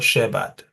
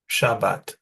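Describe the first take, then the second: First: The first syllable is said as 'sheh'. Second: The first syllable is said as 'sha'. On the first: The speaker calls it wrong. "not Shebat" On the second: The speaker calls it right. "Sha, that's the Shin, Sh, pronounced Sha"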